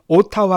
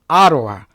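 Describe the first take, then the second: First: The middle consonant is a clear t sound. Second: The middle consonant is a soft r-like flap. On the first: The speaker calls it wrong. "발음은 오타와 하지 마시고" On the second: The speaker calls it right. "아로와 이렇게 발음하라고"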